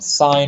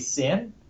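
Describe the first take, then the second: First: The vowel is long, rhyming with fine. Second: The vowel is short, rhyming with tin. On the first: The speaker calls it right. "That's the way we write it" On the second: The speaker calls it wrong. "Don't say sin"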